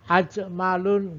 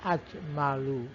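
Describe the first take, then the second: First: The word ends with an added n sound. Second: The word ends in a vowel, without n. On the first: The speaker calls it wrong. "nggak ada" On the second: The speaker calls it right. "adanya ajmalu"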